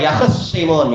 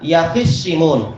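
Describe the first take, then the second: First: No vowel is heard after the kh sound. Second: An i vowel follows the kh sound. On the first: "Khoknya masih disukun" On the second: "wa kasriha"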